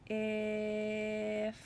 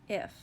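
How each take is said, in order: First: The word is stretched out slowly, sound by sound. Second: The word is said quickly as one unit. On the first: "Let's say it slowly one more time" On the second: "Say it fast"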